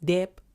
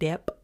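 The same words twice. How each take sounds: First: The b is sounded out in this word. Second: The b is sounded out in this word.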